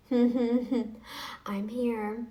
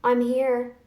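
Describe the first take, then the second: First: Chuckling, teasing I'm here; smug laughing dare; laughing taunt. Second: Said in the usual way. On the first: Real, not acted.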